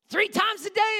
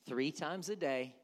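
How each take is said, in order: First: Higher, louder "Three times a day" with a rise on "day"; loud cry. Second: Said in the usual way. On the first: Shown as a demonstration. Daniel's defiant prayer to God, "Three times a day" cried out. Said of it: "repeated phrase louder". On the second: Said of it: "repeated phrase".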